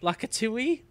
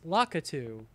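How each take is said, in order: First: The name ends with an extra 'ee' sound. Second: The name ends plainly, rhyming with 'cockatoo'. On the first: The speaker calls it wrong. "There's no E at the end of Lakatu" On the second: The speaker calls it right. "Like a cockatoo"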